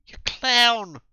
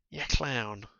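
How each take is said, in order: First: High, loud furious yell; furious insult. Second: Said in the usual way. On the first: Acted. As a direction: spit it out in rage. Woman insults him furiously.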